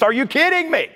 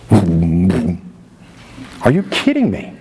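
First: High, sharp disbelief; pitched-up are you kidding me. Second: Slow, low, drawn-out disbelief; stunned, dragging the question out. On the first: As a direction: yelp it out, incredulous. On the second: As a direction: let the disbelief sink in slowly. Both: Real, not acted. Preacher reacting to survey numbers.

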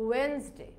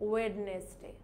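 First: ওয়েডনেসডে as "wens-day", no middle D; two syllables, silent D in ওয়েডনেসডে; correct pronunciation. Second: ওয়েডনেসডে in three syllables, "wed-nes-day"; mistaken pronunciation. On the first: Teacher giving learners the proper form, wens-day pronunciation. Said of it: "আমাদের এটার উচ্চারণটা হবে". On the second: Teacher showing what we wrongly say, wed-nes-day mispronunciation. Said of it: "এটাও কিন্তু ভুল". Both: Shown as a demonstration.

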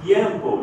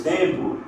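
First: "Tiempo" with a clear "ye" glide; Spanish ie in "Tiempo"; Spanish IE diphthong. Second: Said in the usual way. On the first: Shown as a demonstration. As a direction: say "Tiempo" as TYEM-po, crisp t. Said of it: "em espanhol, ie". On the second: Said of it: "português tempo".

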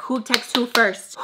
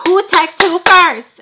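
First: Said in the usual way. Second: Very loud, high, drawn-out question; shouted demand. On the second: Retold or imitated. Roommate demanding to know who texts first, shouting. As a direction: shout it slowly, demanding an answer.

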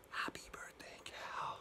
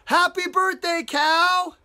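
First: Hushed whisper. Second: High, loud birthday cheer; surprise shout. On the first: Storyteller repeating the birthday cheer to kids, whispered. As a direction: whisper it very softly. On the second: Storyteller voicing everybody surprising Cow, excited shout. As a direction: call it out like a surprise party. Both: Acted.

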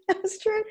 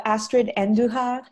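First: Astrid in a Spanish accent, pitched much higher and rising; hammed-up Spanish Astrid, voice jumping up. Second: Astrid Andujar in a light Spanish accent. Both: Shown as a demonstration. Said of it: "I try to do the Spanish accent".

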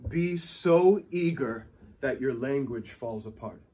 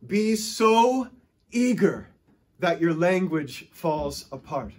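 First: Said in the usual way. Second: Eager emphasis on "so" and "eager"; stress on so and eager. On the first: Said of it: "Here's the principle". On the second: Shown as a demonstration. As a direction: lean hard on "Be so eager".

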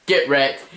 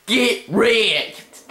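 First: Said in the usual way. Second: High, drawn-out gloat; triumphant taunt. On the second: Real, not acted. Gamer finishing off opponent, high gloating taunt. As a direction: stretch both words, pitched way up.

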